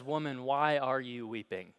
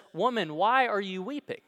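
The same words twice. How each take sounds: First: Said in the usual way. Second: Higher, louder second voice asking gently; a different man asking, pitched higher and louder; the gardener's question. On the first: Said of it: "this voice comes from nowhere". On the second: A narrator's reading. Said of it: "this time it's from someone else".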